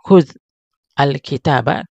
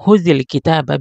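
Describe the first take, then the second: First: The words are said separately, without a linking vowel. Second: The words are joined with a linking 'i' vowel.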